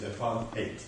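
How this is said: It is said with a South African pronunciation. The speaker calls it right. "The proper pronunciation is apartheid. That's the way we grew up"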